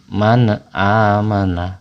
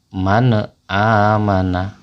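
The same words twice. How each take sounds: No difference in how they are said.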